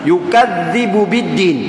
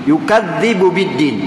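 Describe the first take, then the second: Both takes have the same delivery.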